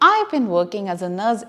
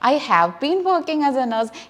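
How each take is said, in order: First: 'I have' is joined into one syllable. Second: Each word of 'I have' is said separately. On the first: The speaker calls it right. "ഭംഗിയായിരിക്കും" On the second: The speaker calls it wrong. "എടുത്തെടുത്ത് പറയുന്നതിനെക്കാട്ടിലും"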